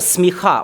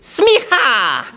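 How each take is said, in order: First: It is said plainly, without a Texan drawl. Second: It is said with an exaggerated Texan drawl.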